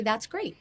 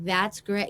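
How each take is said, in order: First: Said in the usual way. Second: Dry sarcastic "That's great."; a lightly sarcastic "That's great." with a flat drawn-out great; snarky sarcasm. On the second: Shown as a demonstration. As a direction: say "That's great." like you don't mean it at all. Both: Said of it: "I could say it with a snarky sarcasm".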